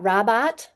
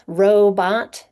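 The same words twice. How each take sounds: First: "robot" misread as ROB-bot, short O; wrong closed syllable. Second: "robot" split as ROE-bot, long O first, loud; open syllable. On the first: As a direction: say "robot" wrongly, first syllable rhyming with "job". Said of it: "They know it's not robot". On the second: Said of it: "open syllable". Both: Shown as a demonstration.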